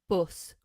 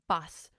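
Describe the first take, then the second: First: The vowel is a short uh sound. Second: The vowel is a more open ah sound. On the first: "you can tell that I'm northern because I say us" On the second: "if you're from the south of England, you would say"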